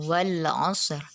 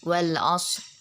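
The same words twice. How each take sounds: First: The final r is pronounced clearly. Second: The final r is barely audible. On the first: "dibaca jelas kayak Bunda tadi langsung" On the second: "hanya kita yang bisa merasakan itu kalau ro-nya itu kita baca"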